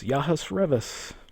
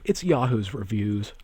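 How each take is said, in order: First: The last word sounds like 'revis'. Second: The last word sounds like 'reviews'. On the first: The speaker calls it wrong. "Dunmers in Elder Scrolls lore actually have the name uh, Revis" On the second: The speaker calls it right.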